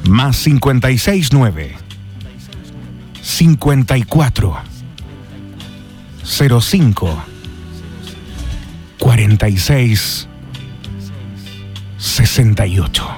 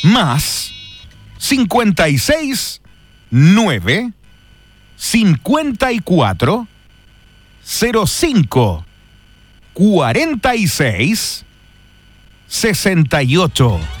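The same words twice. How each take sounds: First: It is said in a sensual, seductive way. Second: It is said in a plain, neutral way.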